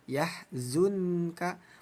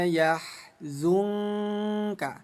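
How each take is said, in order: First: The n is pronounced as a clear n. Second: The n is blurred into a nasal ng. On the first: "Yang tadinya" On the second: "bunyi nunnya diganti menjadi bunyi eng"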